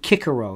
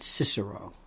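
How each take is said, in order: First: It is pronounced the classical Latin way. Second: It is pronounced the church Latin way. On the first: The speaker calls it right. "We say Cicero" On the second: The speaker calls it wrong. "not Cicero"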